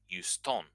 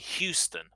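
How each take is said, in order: First: The stress is on the last syllable. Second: The stress is on the first syllable. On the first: This is how French speakers say it. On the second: This is how English speakers say it.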